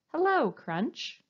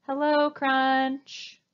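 First: A medium voice, slow and kind; bold yet gentle. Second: A slow, too-loud hello. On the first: Teacher showing the right hello, bold yet gentle. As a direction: greet him gently but clearly. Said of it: "in a nice, medium-sounding voice. Bold, yet gentle". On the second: Teacher demoing a hello that scares Crunch, loud. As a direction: greet him loudly and slowly. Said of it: "you've said it too loudly". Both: Shown as a demonstration.

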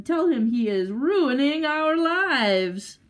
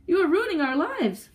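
First: Loud, high, long drawn-out wail; exasperated cry. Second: High, raised accusation at normal speed; distraught cry. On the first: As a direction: stretch it slowly into a furious wail. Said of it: "cried the woman". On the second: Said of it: "cried the husband". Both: A narrator's reading.

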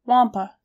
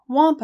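First: Said in the usual way. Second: Higher, louder excited echo. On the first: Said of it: "I repeated". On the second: A narrator's reading. Narrator echoes the hunter's news, excited. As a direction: repeat it with sudden excitement. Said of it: "I was excited".

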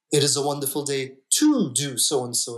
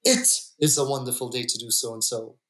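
First: "to" leaned on, the rest of the line even; stress on to. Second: "It" said first and firmest, the line then falling away; stress on It. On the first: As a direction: hit the word "to" a little harder. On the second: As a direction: open by leaning on "It". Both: Shown as a demonstration. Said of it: "depending on where you put the emphasis".

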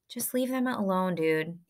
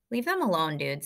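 First: Calm, measured request without extra volume; calm repeat. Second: Said in the usual way. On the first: A narrator's reading. Amos telling the bullies to back off, calmly. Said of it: "Amos repeated calmly". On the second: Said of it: "said Amos".

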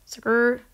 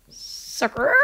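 First: Said in the usual way. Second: Sucker breathed as a whisper; whispered taunt. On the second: Shown as a demonstration. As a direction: hiss the word Sucker quietly.

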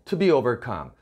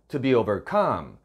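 First: Said in the usual way. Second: Relax To be, then land on overcome; light unstressed To be. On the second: Shown as a demonstration. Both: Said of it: "To be는 힘을 빼고요".

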